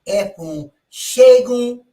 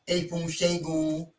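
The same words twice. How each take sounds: First: The first vowel is an open 'eh' sound. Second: The first vowel is not an 'eh' sound. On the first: The speaker calls it right. "E with a dot under it is eh" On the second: The speaker calls it wrong.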